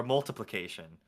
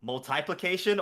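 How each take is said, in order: First: "multiplication" as mul-tuh-plication; usual short multi. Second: "multiplication" as mul-tie-plication; multi as MUL-tie. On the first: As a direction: say "multiplication" with a short unstressed second syllable. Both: Shown as a demonstration. Asks which of two pronunciations.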